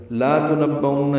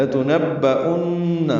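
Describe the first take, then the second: First: لا تنبؤن with the lam wrongly lengthened to لا; wrong pronunciation. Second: لتنبؤن with a short lam, chanted slowly and higher; correct pronunciation. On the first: Teacher showing students the wrong reading, lam lengthened. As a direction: show the mistake: stretch لا in لا تنبؤن. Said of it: "یہ بھی بالکل غلط ہے". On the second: Teacher giving students the correct reading, slow and chanted. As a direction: recite لتنبؤن with a quick lam and a held nun. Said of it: "لام لمبا نہیں کرنا". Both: Shown as a demonstration.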